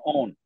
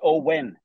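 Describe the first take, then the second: First: The name is said without a clear W sound. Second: The name is said with a clear W sound. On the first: The speaker calls it wrong. "I was going Owen" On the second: The speaker calls it right. "but it's Owen. There's a W in there"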